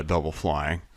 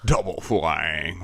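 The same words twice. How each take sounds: First: Said in the usual way. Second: Slow, low gloating villain; mustache twirling villain. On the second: Pretend. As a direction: relish the words like a villain. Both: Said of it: "And your Kami has double flying".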